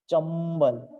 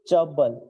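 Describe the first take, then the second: First: The word has an 'm' sound before 'b'. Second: The word has no 'm' sound before 'b'. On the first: The speaker calls it right. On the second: The speaker calls it wrong.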